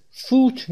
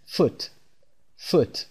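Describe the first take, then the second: First: فوت with a long, stretched oo; wrongly drawn-out oo. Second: فوت with a brief, clipped u; short oo. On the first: Teacher showing how not to say it, oo stretched. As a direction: drag out the oo in فوت. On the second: Teacher correcting the long version, short u. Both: Shown as a demonstration. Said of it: "صدای او کشیده نیست".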